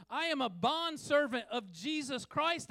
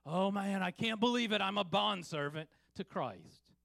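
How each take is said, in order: First: Proud. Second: Complaining. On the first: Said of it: "as if it's a badge of honor". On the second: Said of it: "in a complaining tone". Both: Pretend.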